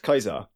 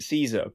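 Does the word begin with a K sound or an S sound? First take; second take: K sound; S sound. First: The word begins with a hard K sound. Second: The word begins with a soft S sound. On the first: This is the original Latin pronunciation. "technically speaking, it should be pronounced Kaiser" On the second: This is the modern anglicized pronunciation. "we now pronounce it Caesar"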